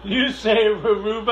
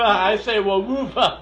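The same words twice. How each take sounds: First: "Weruva" stumbled into r sounds, amused; mispronounced Weruva. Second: Slow, amused "Weruva" with an l-like middle; contrasting Weruva. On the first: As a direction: say "Weruva" with an r-like first sound, laughing. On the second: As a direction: say "Weruva" slowly with a w start, laughing. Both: Shown as a demonstration. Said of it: "I have a problem saying Weruva".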